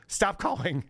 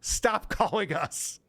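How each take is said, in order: First: Curt brush-off. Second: Deliberate slow Stop calling us; slow emphatic. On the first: Retold or imitated. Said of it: "You know, just like". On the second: Shown as a demonstration. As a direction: Stop calling us spelled out slowly, each word weighted. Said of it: "It's literally the".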